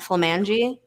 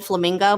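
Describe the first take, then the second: First: The word ends in an altered -angi sound. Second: The word is said with its usual pronunciation. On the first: The speaker calls it wrong. "I purposely mispronounce all the names of the streets" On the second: The speaker calls it right. "we'll go on Flamingo"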